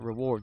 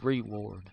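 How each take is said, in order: First: The word is said plainly, without drawl. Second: The word is drawn out in a Southern drawl. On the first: The speaker calls it wrong. "It's not reward" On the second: The speaker calls it right. "If you're in the South, you gotta over exaggerate words"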